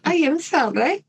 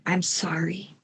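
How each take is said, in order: First: Lightly put-on Italian accent, pitched higher; a playful hint of Italian accent on "I am sorry". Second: Said in the usual way. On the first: Killer apologizes in a mock Italian accent. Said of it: "should I do that with an Italian accent?". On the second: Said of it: "Or should I do that with an Italian accent?".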